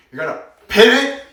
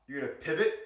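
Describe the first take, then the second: First: Pivot blasted out very loud, high and rising; heavy stress on pivot. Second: Said in the usual way. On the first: Shown as a demonstration. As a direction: hammer the word pivot with exaggerated volume. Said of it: "Really emphasize on the pivot".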